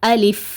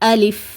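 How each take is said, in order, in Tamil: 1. இரண்டாவது உயிர் 'i' போல ஒலிக்கும். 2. இரண்டாவது உயிர் 'i' போல ஒலிக்கும்.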